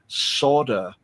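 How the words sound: It is said the North American way. "people from the U S and Canada saying solder"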